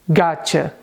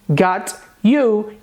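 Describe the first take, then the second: First: The t and y sounds merge into ch. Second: The t and y sounds are kept separate. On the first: "gotcha é uma representação escrita fonética de got you" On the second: "E depois got you"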